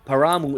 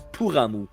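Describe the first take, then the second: First: The first syllable sounds like 'pa'. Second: The first syllable sounds like 'pu'. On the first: The speaker calls it wrong. "Paramu is not" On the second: The speaker calls it right. "It's Puramu"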